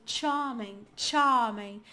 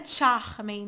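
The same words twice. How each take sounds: First: "charming" with long vowel, no r; British silent R. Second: "charming" with a throaty h-like Rio r; carioca R. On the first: Teacher repeating the British model, "charming" without r. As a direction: model "charming" as "chah-ming". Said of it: "você vai falar charming". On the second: Teacher warning against sounding carioca, "charming" with guttural r. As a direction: wrongly say "charming" as "chah-h-ming". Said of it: "não é pra ir pra um carioca". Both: Shown as a demonstration.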